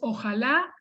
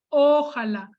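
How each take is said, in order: First: The stress is on the last syllable. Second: The stress is on the first syllable. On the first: The speaker calls it right. "Es ojalá y lleva tilde en la A" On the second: The speaker calls it wrong. "dándole tonicidad a la O y pronuncian ojalá, que es una pronunciación equivocada"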